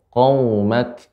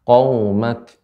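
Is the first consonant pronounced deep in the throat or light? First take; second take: deep; deep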